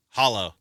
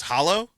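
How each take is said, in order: First: "Hollow." lower, falling at the end; confirming. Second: "Hollow?" rising at the end as a question. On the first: Wang answering Jack about the door, confirming. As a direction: answer "Hollow." as a low, settled statement. Retold exchange, answer to the question. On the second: Jack asking Wang about the door, questioning. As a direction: ask "Hollow?" with an upward lift. Retold exchange, question then answer. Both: Retold or imitated.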